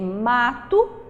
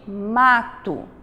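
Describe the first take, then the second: First: Each letter is sounded exactly as it is written. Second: The word is said with natural spoken vowel reduction. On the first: The speaker calls it wrong. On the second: The speaker calls it right.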